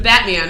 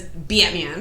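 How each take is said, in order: First: Said in the usual way. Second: Batman drawn out with a Jersey vowel; slow accidental Jersey accent on Batman. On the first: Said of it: "instead of Batman". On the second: Shown as a demonstration. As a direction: stretch Batman into "Bee-uht-man", Jersey-style. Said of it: "it'll come out like that".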